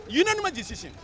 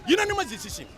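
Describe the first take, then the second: First: Said in the usual way. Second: Unanimous said high and hard, first syllable punched; stress on unanimous. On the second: Real, not acted. Host tells the listener the ruling, Unanimous punched high. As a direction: hit Unanimous high and strong.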